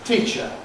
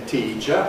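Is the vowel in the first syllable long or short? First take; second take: short; long. First: The first vowel is clipped short. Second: The first vowel is held long. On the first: The speaker calls it right. "we say teacher" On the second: The speaker calls it wrong. "But we don't say teacher"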